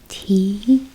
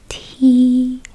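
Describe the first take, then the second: First: The pitch rises from low to high. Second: The pitch stays high and level. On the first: It means to lift or carry. "The second tone is a rising tone" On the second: It means to kick. "pronounce it relatively higher than other tones"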